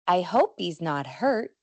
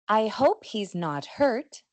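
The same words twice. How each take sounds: First: The final consonants are held without release. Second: The final consonants are released with a puff. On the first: This is the informal pronunciation. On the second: This is the formal pronunciation.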